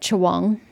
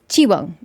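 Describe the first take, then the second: First: The first syllable sounds like 'cha'. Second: The first syllable sounds like 'chi'. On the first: The speaker calls it wrong. "Why is she pronouncing it Chawang?" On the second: The speaker calls it right. "But it's Chiwang"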